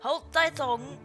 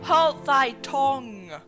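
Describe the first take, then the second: First: The last word sounds like thong. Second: The last word sounds like tongue. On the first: The speaker calls it wrong. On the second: The speaker calls it right.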